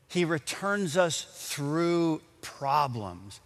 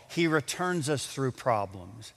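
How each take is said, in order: First: Slower, each word weighed: "He returns us through problems"; slow emphatic repeat. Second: Said in the usual way. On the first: Shown as a demonstration. Preacher repeating the point slowly for the congregation, emphatic.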